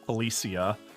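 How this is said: It is said with an English accent.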